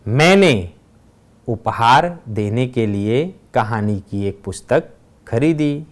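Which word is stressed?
मैंने. The stress falls on the word मैंने. "पहले वाक्य में मैंने शब्द पर भार दिया गया है"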